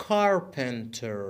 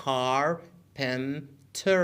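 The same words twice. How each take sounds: First: Said in the usual way. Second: Carpenter very slowly, car, pen, ter; syllable by syllable. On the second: Shown as a demonstration. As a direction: say carpenter in three separated syllables. Teacher breaks word into syllables.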